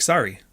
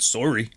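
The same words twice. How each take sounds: First: "Sorry" as "sar-ee"; American "Sorry" with an open ah; American pronunciation. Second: "Sorry" as "sore-ee"; Canadian "Sorry" with a rounded o; Canadian pronunciation. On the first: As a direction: say "Sorry" with the vowel of car. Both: Shown as a demonstration. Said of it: "how you guys say that".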